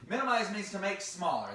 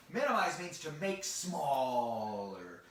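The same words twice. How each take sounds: First: Said in the usual way. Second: Slow, drawn-out definition with a long "smaller"; slow explanation. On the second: Shown as a demonstration. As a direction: stretch "smaller" right out. Explaining a big word to children.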